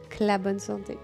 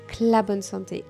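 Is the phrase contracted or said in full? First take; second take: contracted; contracted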